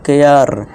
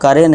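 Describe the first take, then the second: First: The word is said as 'ke-yar'. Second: The word is said as 'ka-re'. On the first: The speaker calls it right. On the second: The speaker calls it wrong. "करे नहीं"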